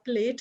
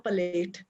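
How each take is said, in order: First: The word is said without an added vowel. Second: The word is said with an added vowel.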